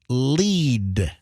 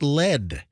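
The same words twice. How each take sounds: First: The vowel is long, rhyming with bead. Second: The vowel is short, rhyming with bed. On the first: The word means to guide. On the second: The word means the toxic metal.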